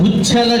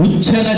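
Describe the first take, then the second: No difference in how they are said.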